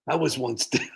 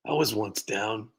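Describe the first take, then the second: First: Cracking up while quoting the scammer; can't keep a straight face on the word down; laughing mid-quote. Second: Slow, deliberately earnest redo of the line; mock solemn retake. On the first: Retold or imitated. Streamer laughing through the scammer's sob story. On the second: Streamer re-reads the scammer's line in slow mock earnestness. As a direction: say it again slowly, straight-faced, mocking sincerity.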